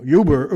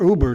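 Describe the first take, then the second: First: "Uber" begun with a y glide, YOO-ber; mispronounced Uber. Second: Said in the usual way. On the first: Real, not acted. Slip while telling a drinking story, "Uber" said as YOO-ber. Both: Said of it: "Uber, excuse me".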